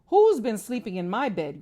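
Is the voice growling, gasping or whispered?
growling. It is said in a deep growling voice.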